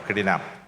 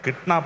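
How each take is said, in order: First: An extra vowel splits it into three syllables. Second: It is said as two syllables, no extra vowel. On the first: The speaker calls it wrong. "അങ്ങനെ ഒരു വാക്ക് പഠിപ്പിച്ചു" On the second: The speaker calls it right. "എനിക്ക് മനസ്സിലായത് കിഡ്നാപ്പ് എന്ന വാക്കിനെയാണ്"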